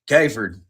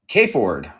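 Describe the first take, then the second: First: The name is run together in a relaxed regional accent. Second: Both parts of the name are carefully, separately enunciated. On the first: "most people go Kayford... we're lazy. We don't want to enunciate everything" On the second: "That's me enunciating very un-Indiana"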